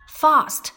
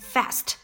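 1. 这个元音是按英式方式发的。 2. 这个元音是按美式方式发的。

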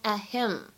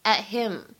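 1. t 在 him 前面保持不释放。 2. t 在 him 前面保持不释放。

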